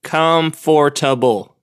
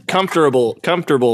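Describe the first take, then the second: First: "Comfortable" drawn out as COM-FOR-TA-BLE; as spelled. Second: "Comfortable" shortened to COMF-ter-ble; normal pronunciation. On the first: Working out the spelling aloud, slow spelled-out pronunciation. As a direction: slowly sound every syllable of "Comfortable", with a full FOR. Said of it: "that's how it's spelled". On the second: Testing the word on her co-host, normal pronunciation of comfortable. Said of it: "not how normal people pronounce it". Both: Shown as a demonstration.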